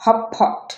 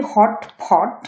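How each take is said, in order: First: হটপট said "hop-pot", first t gone; assimilated T. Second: Said in the usual way. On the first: Shown as a demonstration. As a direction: turn the middle t of হটপট into p. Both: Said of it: "এটা উচ্চারণ হবে".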